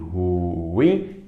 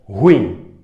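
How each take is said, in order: First: It has two syllables, stressed on the last. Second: It is squeezed into a single syllable. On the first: The speaker calls it right. "A mais forte é o in" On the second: The speaker calls it wrong. "como se ela fosse monossílaba"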